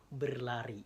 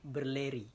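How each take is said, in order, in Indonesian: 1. Vokal kedua dilafalkan sebagai a. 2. Vokal kedua dilafalkan sebagai e. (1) "berlari kan jelas nih" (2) "jangan sampai a itu jadi e, jadi berleri"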